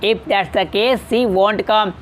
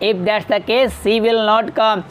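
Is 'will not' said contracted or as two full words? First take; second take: contracted; full. First: The negative is contracted into one short word. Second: The negative is said as two separate words. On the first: "विल नॉट को वॉन्ट पढ़ते हैं" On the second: "इसको अलग अलग करके"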